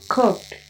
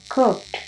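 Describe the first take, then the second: No difference in how they are said.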